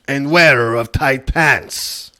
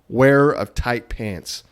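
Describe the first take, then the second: First: It is read in a put-on Mexican accent. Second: It is read in the speaker's plain accent.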